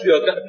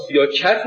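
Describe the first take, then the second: First: "سیاقت" said with a back ق; "siyâqat", not a front k; qaf in "سیاقت". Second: "سیاکت" said with a front k for ق. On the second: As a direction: make the ق a plain ک: "سیاکت". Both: Shown as a demonstration. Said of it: "قاف و کاف به هم دیگه اینقدر نزدیکه".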